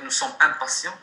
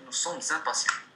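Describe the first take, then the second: First: Sommes and impatients are said separately, unlinked. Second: The s of sommes links into impatients. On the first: The speaker calls it wrong. "On ne peut pas dire nous sommes impatients, c'est faux en langue française" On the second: The speaker calls it right. "on dit nous sommes impatients"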